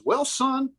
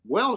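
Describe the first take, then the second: First: Folksy well son. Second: Drawn-out well. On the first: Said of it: "he goes". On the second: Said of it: "And he goes". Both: Retold or imitated.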